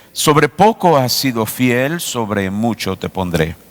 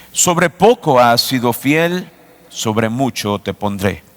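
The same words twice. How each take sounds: No difference in how they are said.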